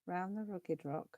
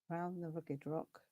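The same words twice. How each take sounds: The two takes are said the same way.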